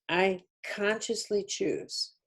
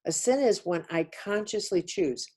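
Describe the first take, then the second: First: Consciously slowed and leaned on; "consciously" stretched out, each syllable weighted; stress on conscious. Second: Said in the usual way. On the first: Shown as a demonstration. Teacher pressing the word consciously home, slow and deliberate. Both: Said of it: "emphasis on the word conscious".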